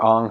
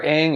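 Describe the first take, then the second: First: Ong with an open "ah" or "aw" vowel; alternative pronunciation. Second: Aang with the vowel of "hang"; pronunciation variant. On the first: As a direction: say Ong to rhyme with "song". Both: Shown as a demonstration. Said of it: "however you wanna say it".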